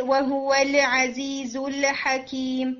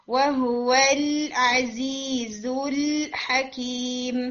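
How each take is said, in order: First: وَهُوَ الْعَزِيزُ الْحَكِيمُ with each lam echoing in qalqalah; students' bouncing lam. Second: وَهُوَ الْعَزِيزُ الْحَكِيمُ slowly, each l held; correct full lam. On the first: Retold or imitated. Teacher imitating her students' usual error, bouncing lam in وَهُوَ الْعَزِيزُ الْحَكِيمُ. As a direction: recite الْعَزِيزُ الْحَكِيمُ releasing every l too early. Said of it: "عموماً students کی یہ sound آ رہی ہوتی ہے".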